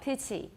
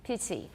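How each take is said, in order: First: The middle consonant is a clear t. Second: The same.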